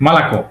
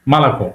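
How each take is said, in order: Both takes have the same delivery.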